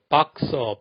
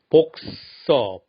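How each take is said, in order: First: The first vowel is an open 'a' sound. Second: The first vowel is a rounded 'o' sound. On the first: It matches how the base word is said. The speaker calls it right. "뭔가 일관성이 있고 반듯하게 들리지 않나요? 자연스럽고 소통 잘 되는 영어 발음" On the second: It copies what everyone else says. The speaker calls it wrong. "남들 다 그러니까 그냥 복서, 복싱 따라합니다"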